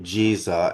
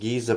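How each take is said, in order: First: The word begins with a J sound. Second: The word begins with a hard G sound. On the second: This is how the local people say it. "pronounced Giza Plateau for the local Arabs only"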